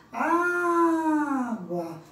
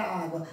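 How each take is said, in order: First: "Água" with a long, loud, raised first A; sílaba tônica destacada. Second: Said in the usual way. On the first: Shown as a demonstration. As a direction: call out "Água", stretching the opening A. ("Água" com o primeiro A bem esticado e forte) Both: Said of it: "Qual é a sílaba tônica".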